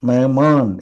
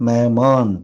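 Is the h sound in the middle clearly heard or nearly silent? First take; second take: nearly silent; nearly silent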